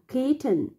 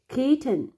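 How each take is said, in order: The two takes are said the same way.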